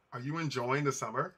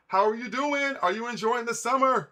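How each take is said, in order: First: Said in the usual way. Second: Higher, bright upbeat question to a viewer; cheery greeting. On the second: Real, not acted. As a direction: greet a fan with a lift in the voice. Greeting a chat viewer warmly.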